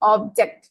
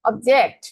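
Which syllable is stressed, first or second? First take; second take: first; second. First: The stress is on the first syllable. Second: The stress is on the second syllable. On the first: It is a noun meaning a thing. "প্রথম সিলেবলে যখন stress দিয়েছিলাম" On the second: It is a verb meaning to disagree. "যখন আমি জেক্টের মধ্যে ওই যে দ্বিতীয় সিলেবলের মধ্যে স্ট্রেস দিয়েছি"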